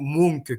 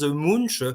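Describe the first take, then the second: First: The name is said with a Norwegian pronunciation. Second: The name is said with a French pronunciation. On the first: "qu'en norvégien, c'est plutôt Munch que l'on dit" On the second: "je vais le prononcer le nom à la française"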